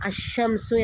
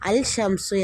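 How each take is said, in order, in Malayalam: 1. 'l' ഇരട്ടിച്ച 'sh' ശബ്ദത്തിൽ ലയിക്കുന്നു. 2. 'shamsu'ക്ക് മുമ്പ് വ്യക്തമായ 'l' ഉച്ചരിക്കുന്നു. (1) "നമ്മൾ അഷംസു എന്നാണ് പറയുക" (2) "അൽ ഷംസു എന്ന് പറയാറില്ല"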